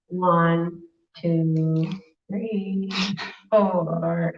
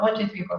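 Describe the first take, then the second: First: It is counted slowly and sleepily. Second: It is counted fast and tense.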